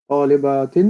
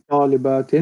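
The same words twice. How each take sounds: No difference in how they are said.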